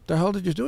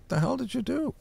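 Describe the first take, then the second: First: Raised, slightly louder demand; retold confrontation. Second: High mock demand, rising at the end; a pitched-up, incredulous what-did-you-do; retold confrontation. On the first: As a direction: retell the question with a lift. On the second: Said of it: "I said".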